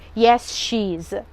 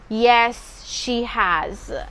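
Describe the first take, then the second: First: The verb is contracted to a short form. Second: The verb is said in its full form. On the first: The speaker calls it wrong. "or yes, she's. Mm-mm, they are false" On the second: The speaker calls it right. "You must say"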